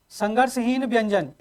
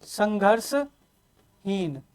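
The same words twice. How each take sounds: First: Said in the usual way. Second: संघर्षहीन spoken very slowly, each syllable stretched and soft; slow, quiet teacher's model of संघर्षहीन; drawn-out answer. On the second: Shown as a demonstration. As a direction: stretch संघर्षहीन out for the class to copy. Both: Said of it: "पांचवा क्या हो जाएगा आपके पास?".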